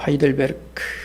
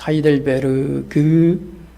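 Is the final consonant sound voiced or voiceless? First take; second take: voiceless; voiced. First: The final sound is a light voiceless k. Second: The final sound is a full voiced g. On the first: The speaker calls it right. "마지막 그 유성음을 크로 가볍게 발음합니다" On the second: The speaker calls it wrong. "그렇게 말하지 않고"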